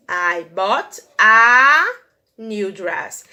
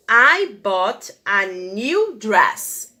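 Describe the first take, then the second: First: Teacher highlighting the indefinite a; stress on a. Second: Very slow, word by word; teacher reading the example; slow model sentence. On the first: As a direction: hang on the article "a". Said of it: "Eu falei que vestido é?". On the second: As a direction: read it slowly for the class. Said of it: "frase que eu coloquei". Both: Shown as a demonstration.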